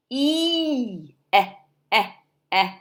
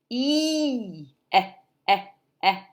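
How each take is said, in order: Both takes have the same delivery.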